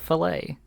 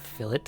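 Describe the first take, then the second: First: The word is said the French way. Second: The word is said the British way. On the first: The speaker calls it right. "it's a French word and it's said fillet" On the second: The speaker calls it wrong. "It's not a fillet"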